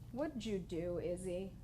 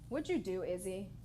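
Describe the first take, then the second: First: It is said slowly with space between words. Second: It is said at normal pace.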